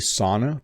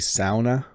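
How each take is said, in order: First: Sauna is said with the North American pronunciation. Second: Sauna is said without the North American pronunciation. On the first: The speaker calls it wrong. "That is the bad North American pronunciation of this" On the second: The speaker calls it right. "I think you're supposed to say sauna"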